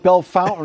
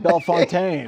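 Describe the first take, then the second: First: It is said the local way. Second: It is said the usual way. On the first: This is how the locals say the name. "they call it Bellefontaine" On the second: This is how the name is usually said elsewhere. "and not Bellefontaine"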